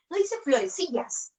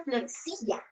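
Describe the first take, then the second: First: Florecillas with the final s marked as wrong; rising tune on florecillas, stressing its plural s. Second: Florecilla said softer, no final s; softly correcting to florecilla without the s; the right singular. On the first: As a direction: point out the s in florecillas as the mistake. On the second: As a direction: quietly give the correct florecilla. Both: Shown as a demonstration.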